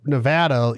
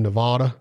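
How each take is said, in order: First: Nevada with a flat A as in "cat"; correct local pronunciation. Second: Nevada with a broad AH, ne-VAH-da; wrong pronunciation. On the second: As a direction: say Nevada like an outsider, middle A as in "father". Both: Shown as a demonstration. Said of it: "that's totally wrong".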